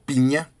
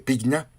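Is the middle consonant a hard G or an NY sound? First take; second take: NY sound; hard G. First: The middle is said as one ny sound. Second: The middle is said with a hard g and n. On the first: "creo que se pronuncia Piña" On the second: "Pigna se escribe"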